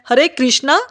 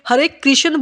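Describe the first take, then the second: First: The name ends with a long 'a' vowel. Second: The name ends without a long final vowel. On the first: It names Draupadi instead. The speaker calls it wrong. "हरे कृष्णा नहीं बोलना" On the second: It names the god Krishna. The speaker calls it right. "हमें हरे कृष्ण बोलना है"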